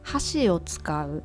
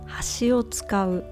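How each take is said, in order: First: Hashi carries the pitch accent of chopsticks. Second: Hashi carries the pitch accent of edge. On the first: Use chopsticks. "The first one I think it's easy. Chopstick" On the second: Use the edge. "And the second one is edge"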